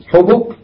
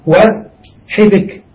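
First: Isolated "حبك" as ḥubuk; two dammas. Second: "وحبك" as wa, then ḥibik; two kasras. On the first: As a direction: say "حبك" with short u on ح and on ب. (نطق "حبك" بضمتين، على الحاء والباء) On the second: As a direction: say "وحبك" with short i on ح and on ب. (نطق "وحبك" بكسرتين، على الحاء والباء) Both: Shown as a demonstration. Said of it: "بضمتين وبكسرتين".

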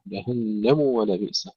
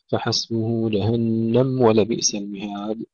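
First: جهنم said jahannamu before ولبئس; clear damma. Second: جهنم run into ولبئس as jahannam-wa; silenced mim. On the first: Teacher giving the correct take, voweled mim in جهنم. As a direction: keep a full u on the م of جهنم. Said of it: "أن لا تدخل ضمة الميم في الواو". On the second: Teacher showing the mistake, vowelless mim in جهنم. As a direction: wrongly drop the u after جهنم. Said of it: "فتسكن الميم". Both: Shown as a demonstration.

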